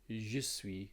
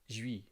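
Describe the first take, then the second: First: Both words are said fully and separately. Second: The words are squeezed into one short syllable. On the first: "that's the classroom way of saying it" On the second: "French people actually say suis"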